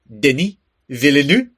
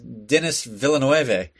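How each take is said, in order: First: The name is said with exaggerated French pronunciation. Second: The name is said with English-style pronunciation. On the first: "But no, it's like" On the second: "the first time I heard it, I was like"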